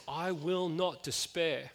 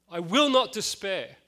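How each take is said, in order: First: Slow, quiet, steady determination; quiet resolve. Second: Slow and louder, pressing hard on will; the vow said again, stronger; rising resolve. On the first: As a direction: inward vow of resolve. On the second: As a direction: repeat the vow with growing force. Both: Retold or imitated. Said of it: "there's this determination".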